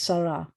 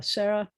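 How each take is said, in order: First: "Sarah" as SAH-rah, open "ah" in both syllables; corrected "ah" vowel. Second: "Sarah" as SEH-ra, English-style first vowel; wrong "Seh" vowel. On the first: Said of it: "There's no A in Hebrew". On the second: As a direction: show the mistaken "Sarah" with an "eh" sound. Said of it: "it's not Seh". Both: Shown as a demonstration.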